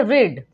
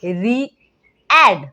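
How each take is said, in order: First: रीड as one syllable with a long ee, no a sound; single long ee. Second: री-एड drawn out very slowly as two separate vowels, ee then a; wrong split reading. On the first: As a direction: say रीड joined up, like "reed". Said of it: "सिर्फ ई का sound सुनने को मिलता है". (रीड में सिर्फ लंबी ई की आवाज़) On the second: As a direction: split री-एड into "ree... ad", sounding both vowels. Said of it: "तो ये तो पूरा गलत हो जाएगा". (री-एड को दो अलग स्वरों में तोड़कर, बहुत धीरे) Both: Shown as a demonstration.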